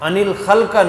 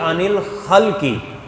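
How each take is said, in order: First: The last word ends with an a vowel. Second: The last word ends with an i vowel. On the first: The speaker calls it wrong. "नहीं" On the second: The speaker calls it right. "बल्कि"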